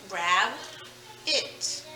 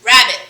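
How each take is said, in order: First: "Rab", a clear pause, then a soft "it"; split into syllables. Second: Said in the usual way. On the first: Shown as a demonstration. Teacher splitting rabbit for pupils, two soft separate syllables. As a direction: break it softly into "Rab" and "it". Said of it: "the syllable rab". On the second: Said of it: "I've got two more".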